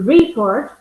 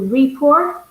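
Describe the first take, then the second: First: The stress is on the first syllable. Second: The stress is on the second syllable. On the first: It names the action of giving information. "If I stress the first sy- syllable" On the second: It names the document. "when I stress the second syllable"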